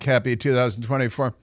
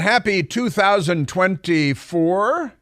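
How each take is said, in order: First: The voice falls at the end like a statement. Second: The voice rises at the end like a question.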